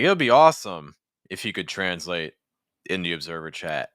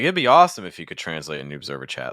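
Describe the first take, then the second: First: The words are said in separate, detached chunks. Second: The words flow together in one linked group. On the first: The speaker calls it wrong. "that sort of rhythm to me certainly is possible in American English, but doesn't sound the most natural" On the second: The speaker calls it right. "something like that would feel a little bit more linked to me"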